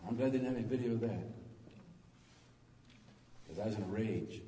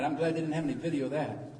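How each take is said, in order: First: Softer, faster, lower repeat under the breath; quiet aside. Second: Said in the usual way. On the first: Shown as a demonstration. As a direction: toss it off quickly as a sheepish aside. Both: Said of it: "repeats the line".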